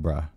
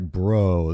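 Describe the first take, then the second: First: The vowel is an open 'ah' sound. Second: The vowel is a rounded 'oh' sound. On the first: "I tend to put a little bit of an ah accent on the bro" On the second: "I don't say like bro"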